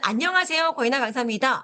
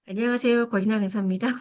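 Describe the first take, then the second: First: The voice sounds clear, steady and confident. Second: The voice sounds hesitant, timid and unsure. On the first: The speaker feels self-assured. The speaker calls it right. "뭔가 기본적으로는 자신감이 있어 보이죠" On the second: The speaker lacks self-confidence. The speaker calls it wrong. "너무 이상하죠, 그죠? 말투도 이상하고"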